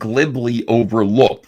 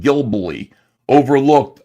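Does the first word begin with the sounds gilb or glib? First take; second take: glib; gilb. First: The word starts with the sounds glib. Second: The word starts with the sounds gilb. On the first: The speaker calls it right. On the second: The speaker calls it wrong.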